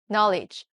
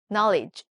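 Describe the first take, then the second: First: The word is said with English sounds. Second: The same.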